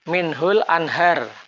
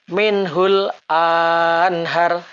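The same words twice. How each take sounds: First: The vowel after the glottal stop is kept short. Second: The vowel after the glottal stop is drawn out long. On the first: The speaker calls it right. "Hamzah kotok tidak dipanjangkan" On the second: The speaker calls it wrong.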